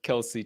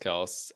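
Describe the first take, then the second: First: The name has two syllables, ending in ee. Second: The name has one syllable, ending in s. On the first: "I specifically pronounced it Kelsey tonight because I was like, well, you know what I'm doing" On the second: "my go-to pronunciation is Travis Kels"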